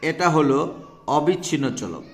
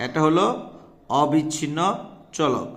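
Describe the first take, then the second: First: Said in the usual way. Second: এটা হলো, then a pause, অবিচ্ছিন্ন, a pause, চলক, each word set apart; teacher repeating the answer with spaced, weighted words; spaced emphasis. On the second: Shown as a demonstration. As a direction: hammer home অবিচ্ছিন্ন with a pause before চলক. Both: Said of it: "সুতরাং".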